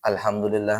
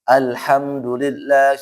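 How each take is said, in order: First: The sounds are relaxed and some are unclear. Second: The sounds are clear but not exaggerated. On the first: The speaker calls it wrong. "terlalu santai ... A-nya enggak jelas atau H-nya enggak jelas" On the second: The speaker calls it right. "pertengahan saja"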